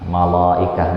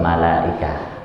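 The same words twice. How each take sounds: First: The L sound is heavy and thick. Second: The L sound is light and thin. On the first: The speaker calls it wrong. "enggak begitu" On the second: The speaker calls it right. "tetap malaikah normal"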